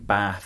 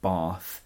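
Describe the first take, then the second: First: The word has a short A vowel. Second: The word has a long A vowel. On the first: The speaker is from the north of England. "it's saying Bath instead of Bath" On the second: The speaker is from the south of England. "instead of Bath"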